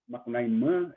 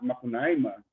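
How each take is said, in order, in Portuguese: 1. Tem uma sílaba tônica diferente. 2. Tem o padrão de acentuação usual do português. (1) "eles dizem com outra pronúncia, né, outro acento tônico" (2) "eu vou dizer Macunaíma em português"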